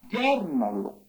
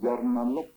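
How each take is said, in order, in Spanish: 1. La primera sílaba es tónica. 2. La primera sílaba no es tónica. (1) "Es acentuando el ya" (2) "No es como él, bueno, la pronuncia"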